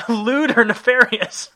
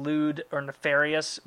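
First: Slow, high, incredulous echo through laughter; amused disbelief. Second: Said in the usual way. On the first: Real, not acted. Host echoing the listener's funny wording, laughing disbelief. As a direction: laugh out the words, high, loud and drawn out.

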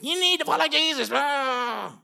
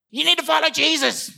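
First: Angry preacher. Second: High, loud scolding; angry preacher. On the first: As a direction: bark it like a sour zealot. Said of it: "Just angry, like lemon evangelists". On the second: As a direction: scold them harshly to follow Jesus. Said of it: "Just angry". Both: Retold or imitated.

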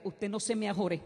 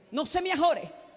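First: Said in the usual way. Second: No se me ajore called out loud and high; preached warning. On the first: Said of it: "el Señor me dijo". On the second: Acted. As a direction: call out no se me ajore. Repeated, preached. (no se me ajore gritado y agudo)

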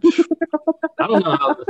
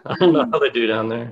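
First: Higher, slow and stretched, a put-on voice; drawn-out mock voice. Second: Said in the usual way. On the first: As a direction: stretch the words out, pitched up. Repeated line, drawn out.

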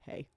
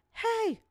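First: Said in the usual way. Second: High-pitched call of "hey"; mock yell from off in the distance; imitated distant yell. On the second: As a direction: call out as if from far off. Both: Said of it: "somebody off in the distance yell".

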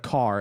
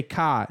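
First: Said in the usual way. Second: "car" with the R dropped, like "cah"; Boston "car". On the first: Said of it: "instead of". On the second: Retold or imitated. Mocking DiCaprio's occasional accent, "car" said as "cah". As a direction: drop the R in "car", Boston style. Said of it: "every once in a while he'll say".

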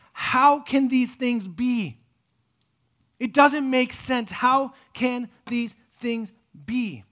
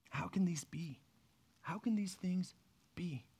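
First: Slow, loud, drawn-out disbelief; the expert crying out, baffled, slowly; loud bewildered question. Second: Whispered, baffled asking; hushed bewildered question. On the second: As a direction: breathe the question out in disbelief. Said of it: "I picture him sitting there and going". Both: Retold or imitated.

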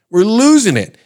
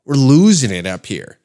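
First: High, loud hysterical outcry; mock panicked yell. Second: Said in the usual way. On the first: Canadians up in arms over tape, mock panicked yell. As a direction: blow up in exaggerated panic. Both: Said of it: "it's got everybody up in arms".

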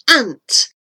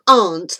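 First: "ant" with a short flat A; short A in "ant", as in "cat"; American pronunciation. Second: "aunt" with a long open ah; broad A in "aunt"; British pronunciation. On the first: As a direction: say "ant" to rhyme with "pant". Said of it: "they call it ant". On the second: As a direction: say "aunt" as "ahnt". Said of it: "pronounce a simple word like aunt". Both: Shown as a demonstration.

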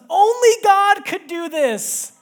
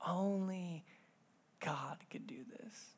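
First: High, loud, slow overwhelmed cry; Only God could do this, cried out high, loud and slow; overwhelmed child. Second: Whispered. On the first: Retold or imitated. Daughter seeing her gift, crying out Only God could do this. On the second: Shown as a demonstration. Pastor repeating his daughter's words to the congregation, hushed whisper. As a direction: breathe God could do this as a hushed whisper. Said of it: "repeats daughter's words softly".

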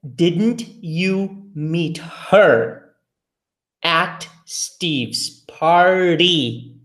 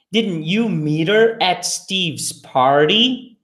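First: Very slow, every word apart. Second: Natural speed, words run together; faster. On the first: Teacher reading slowly for students to repeat. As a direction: drill it slowly for learners. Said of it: "Eu vou falar devagar". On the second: Teacher saying the line faster for students. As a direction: say it quickly and linked. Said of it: "Agora você vai repetir mais rápido". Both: Shown as a demonstration.

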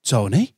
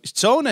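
First: Lightly voiced old man questioning the name; slightly louder, rising query at usual pitch; a hint of an old man checking who it is. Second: High, lilting imitation of a lad; raised voice of a youngster on the phone; young lad. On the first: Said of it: "this old man went". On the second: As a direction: give the name brightly with an upward end. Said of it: "the young lad went".

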